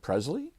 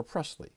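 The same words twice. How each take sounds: First: Presley with a buzzed Z, PREZ-lee; Presley with Z in place of S; Z pronunciation. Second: Presley with a hissed S, PRESS-lee; Presley beginning like "press"; soft S pronunciation. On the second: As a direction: say Presley with an unvoiced S. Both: Shown as a demonstration. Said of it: "I can't pronounce [name] either".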